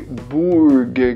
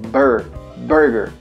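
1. A primeira vogal soa como oo. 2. A primeira vogal soa como er. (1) "o som do U não é de Burger King" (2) "é Burger"

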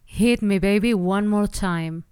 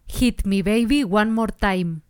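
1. Se dice con acento inglés. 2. Se dice con acento español. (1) "la frase sonará así" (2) "En vez de pronunciar"

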